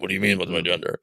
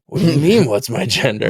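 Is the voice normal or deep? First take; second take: deep; normal. First: It is said in a much deeper voice. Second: It is said in a normal voice.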